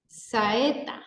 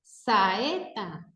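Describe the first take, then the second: First: Said in the usual way. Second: "Saeta" broken into three beats, sa, e, ta; split into syllables. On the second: Shown as a demonstration. Teacher counts three syllables for students, "Saeta" drawn apart. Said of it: "tres sílabas".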